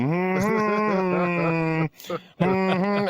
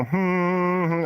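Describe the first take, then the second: First: Long held hum, building up; louder humming. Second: A short sustained hum; demonstrated humming. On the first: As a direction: demonstrate a hum that swells and rises. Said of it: "and you get louder". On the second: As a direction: hum it as a demo. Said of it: "and you start humming". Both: Shown as a demonstration.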